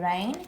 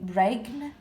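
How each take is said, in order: First: No g sound is heard before the n. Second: A g sound is pronounced before the n. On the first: The speaker calls it right. "the g is silent" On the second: The speaker calls it wrong. "We don't say"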